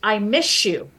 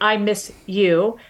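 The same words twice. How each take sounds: First: The s and y blend into sh. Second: The s and y sounds stay separate. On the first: "if I say it in fast speech ... The S and the Y become sh" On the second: "if I say miss you, like I miss you"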